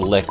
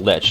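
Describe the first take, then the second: First: The word ends with a k sound. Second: The word ends with a ch sound. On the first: The speaker calls it wrong. "not the lick. I always think that the C H is pronounced like that" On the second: The speaker calls it right. "The lich"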